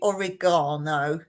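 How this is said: It is said with an English pronunciation. "English say oregano"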